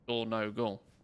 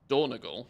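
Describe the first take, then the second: First: All three syllables are said clearly. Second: The middle syllable is swallowed and rushed. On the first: "it's a three-syllable word in my mind" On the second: "sounds like you're swallowing the whole word"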